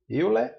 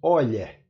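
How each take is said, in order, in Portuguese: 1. O nome é dito com pronúncia portuguesa. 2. O nome é dito com a pronúncia original. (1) "Euler em português" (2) "mas na verdade se pronuncia Euler"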